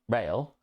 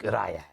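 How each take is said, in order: First: The name sounds like the word rail. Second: The name sounds like the end of Azrael. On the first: "I've said Rail" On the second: "it could be like Rael, like like Azrael"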